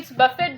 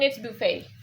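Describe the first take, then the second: First: The word is pronounced as it is spelled. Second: The word is not pronounced as it is spelled. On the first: The speaker calls it wrong. "according to spelling, it's buffet" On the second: The speaker calls it right. "in pronunciation, it's buffet"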